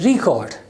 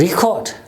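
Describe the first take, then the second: First: The stress is on the first syllable. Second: The same.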